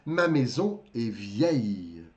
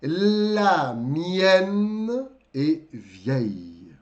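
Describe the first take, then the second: First: Ma maison est vieille, slow, lower; slow model sentence. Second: La mienne est vieille, drawn out very slowly; very slow model. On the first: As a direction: model it slowly for students. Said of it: "Tô falando da minha casa". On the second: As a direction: stretch each word of La mienne est vieille. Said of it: "Mesma coisa". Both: Shown as a demonstration.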